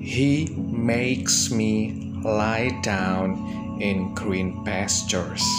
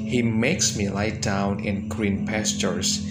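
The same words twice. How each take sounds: First: The sentence is read at a slower pace. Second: The sentence is read at a faster pace.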